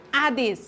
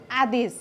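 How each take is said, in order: First: आदेश repeated clearly for pupils to echo; model pronunciation. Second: आदेश said slowly and clearly, every syllable distinct; model pronunciation. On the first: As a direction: say आदेश syllable by syllable as a teacher model. (आदेश शिक्षकले नमुना उच्चारण) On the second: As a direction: pronounce आदेश carefully so the class can copy it. (आदेश स्पष्ट उच्चारण) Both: Shown as a demonstration. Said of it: "म यसलाई उच्चारण गर्दैछु है".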